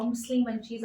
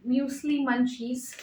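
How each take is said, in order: First: "muesli" without the y-glide, MOOS-lee. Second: "muesli" with a y-glide, MYOOS-lee; muesli as MYOOZ-lee. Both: Shown as a demonstration. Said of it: "I don't know what it is".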